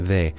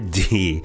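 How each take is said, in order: First: The letter is said as Spanish 'de'. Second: The letter is said as English 'dee'. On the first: "In Spanish, it's actually called" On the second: "That's an American D"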